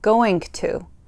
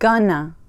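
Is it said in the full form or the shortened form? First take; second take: full; shortened. First: Both words are said fully and separately. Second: The words are reduced and run together. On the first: It is the proper form. "the proper words" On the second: It is informal speech. "Gonna is short for going to"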